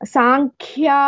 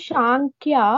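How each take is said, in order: First: The word begins with a sharp 's' sound. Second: The word begins with a 'sh' sound. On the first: The speaker calls it right. "Sa is sharp sound here" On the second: The speaker calls it wrong. "it is not Shankya"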